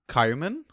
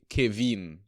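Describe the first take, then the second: First: The name is said like Kaiman. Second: The name is said like Kevin. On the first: The speaker calls it wrong. "I might be pronouncing um his first name wrong" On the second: The speaker calls it right. "it's pronounced K Kevin"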